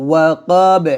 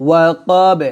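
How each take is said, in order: Both takes have the same delivery.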